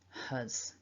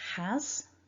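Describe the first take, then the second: First: The vowel is reduced to a weak schwa. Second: The vowel is a full open 'a' sound. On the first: "and the weak form" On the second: "the strong form first"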